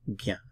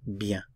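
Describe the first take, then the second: The two takes are said the same way.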